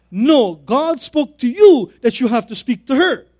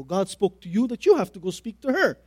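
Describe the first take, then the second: First: Loud, slow, higher-pitched acted command; firm, forceful reply, drawn out and loud; emphatic insistence. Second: Said in the usual way. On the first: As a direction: drive each phrase home with raised voice. Pastor repeats his order, more forcefully.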